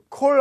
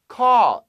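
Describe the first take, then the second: First: The vowel is a rounded 'oh' sound. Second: The vowel is an open 'aw' sound. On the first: The speaker calls it wrong. "콜 아니요. 그건 석탄" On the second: The speaker calls it right. "A-W 발음 신경 쓰세요"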